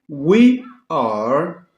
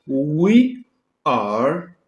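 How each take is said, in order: Both takes have the same delivery.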